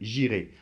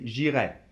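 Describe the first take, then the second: First: The final vowel is said closed. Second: The final vowel is said more open. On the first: It is the future tense. "le futur, A I, c'est davantage fermé" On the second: It is the conditional. "le conditionnel doit être un petit peu plus ouvert"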